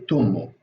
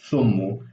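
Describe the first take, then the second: First: It starts with t and has an u vowel. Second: It starts with th and has an u vowel. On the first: "I say tummu. I say I say as t, and uh, the vowel I say o" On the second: "the father says uh"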